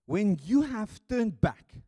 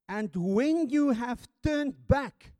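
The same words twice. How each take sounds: First: Loud, slow When you have turned back with YOU leaned on; stress on you. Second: And when you have turned back with you lifted on a rise; rising you. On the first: Preacher repeating Jesus' words to the congregation, slow loud stress. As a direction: drive home the word you. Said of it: "Now listen". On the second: Preacher quoting Jesus to Simon, you rising. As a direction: let you ring upward. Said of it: "that's the words Jesus used here". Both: Shown as a demonstration.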